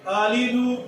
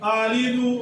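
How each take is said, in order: No difference in how they are said.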